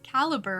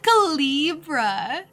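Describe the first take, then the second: First: The word is said with a plain ending. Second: The word is said with a fancy ending. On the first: The speaker calls it right. "Caliber, right?" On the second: The speaker calls it wrong. "That's so fancy. That's not how you say it"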